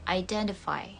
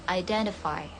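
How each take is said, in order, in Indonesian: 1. Konsonan di tengah terdengar seperti d. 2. Konsonan di tengah terdengar seperti d.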